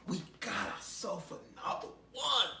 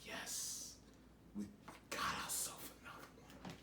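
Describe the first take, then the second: First: Higher, louder demon cheer; voiced demon gloating. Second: Gleeful demon whisper; softer, fast, whispered demon glee. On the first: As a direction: crow over the catch out loud. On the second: Retold or imitated. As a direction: hiss it like a demon with a new catch. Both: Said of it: "They drag you like".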